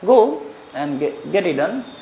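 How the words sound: It is said hesitantly, in a timid, unsure voice. The speaker doubts it will get done. "Confusion में बोलोगे इसी बात को"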